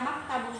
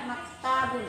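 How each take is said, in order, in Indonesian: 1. Vokalnya pendek, tidak dipanjangkan. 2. Vokalnya panjang dan dipanjangkan. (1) "yang benar itu adalah maktabun ... Tidak panjang" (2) "bukan maktabun"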